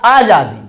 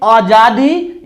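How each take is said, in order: First: Long AA at the start of आजादी; आजादी begun on a full, open आ; long first vowel. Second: Short A at the start of आजादी, as अजादी; आजादी begun on a short, unstretched अ; short first vowel. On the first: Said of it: "आजादी करेंगे तो यह अशुद्ध है". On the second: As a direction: say आजादी with a brief opening "uh". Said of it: "आजादी शुद्ध इसका उच्चारण होता". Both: Shown as a demonstration.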